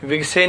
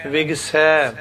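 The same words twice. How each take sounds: First: ਵਿਗਸੇ ending in a plain e; wrong pronunciation. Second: ਵਿਗਸੈ ending in an open ai sound; correct pronunciation. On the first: Teacher naming the wrong form ਵਿਗਸੇ, e ending. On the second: Teacher giving the correct ਵਿਗਸੈ, open ai ending. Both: Shown as a demonstration. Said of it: "ਵਿਗਸੇ ਨਹੀਂ ਕਹਿਣਾ".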